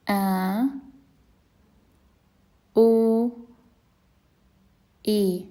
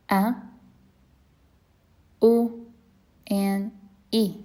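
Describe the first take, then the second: First: "A, u, e" with long vowels. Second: "A, u, e" short; short vowels. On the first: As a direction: hold each vowel after the stop. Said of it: "practice reading with the vowels". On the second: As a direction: clip each vowel after the stop. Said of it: "Now the short ones". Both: Shown as a demonstration.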